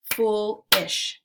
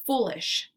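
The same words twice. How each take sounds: First: "Foolish" as two beats with a gap, FOOL, ISH; split into syllables. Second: Said in the usual way. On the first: Shown as a demonstration. Teacher clapping out syllables for learners, "Foolish" segmented as fool ... ish. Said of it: "we'll clap out the syllables". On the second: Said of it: "Let's segment syllables now".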